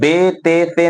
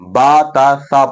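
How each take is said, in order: First: The letter names end in an 'e' vowel. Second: The letter names end in an 'a' vowel. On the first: The speaker calls it wrong. "Urdu तलफ़ुज़ से बचना है ... बे ते ते नहीं पढ़ना है" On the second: The speaker calls it right. "अरबी लहजे में पढ़ना है ... बल्कि बा ता सा पढ़ना है"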